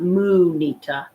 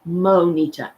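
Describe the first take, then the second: First: The first vowel sounds like 'oo'. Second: The first vowel sounds like 'oh'. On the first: The speaker calls it wrong. "not Moonita" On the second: The speaker calls it right. "Monita, M O N I T A"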